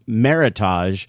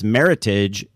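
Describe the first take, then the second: First: The ending does not rhyme with heritage. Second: The ending rhymes with heritage. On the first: The speaker calls it wrong. "I always pronounced for years" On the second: The speaker calls it right. "It rhymes with heritage"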